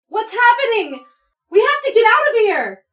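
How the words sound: It sounds frantic and very excited.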